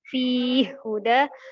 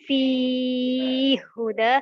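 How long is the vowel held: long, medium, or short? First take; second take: short; medium. First: The long vowel is held for two counts. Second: The long vowel is held for four counts. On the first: "Yang pertama qasr" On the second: "at-tawassut memiliki empat harokat"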